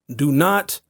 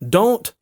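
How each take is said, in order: First: It is said in full. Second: It is said shortened.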